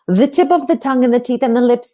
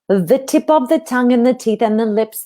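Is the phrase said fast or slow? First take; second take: fast; slow. First: The phrase is said at a faster pace. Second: The phrase is said at a slower pace. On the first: "a bit faster" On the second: "a little bit slower"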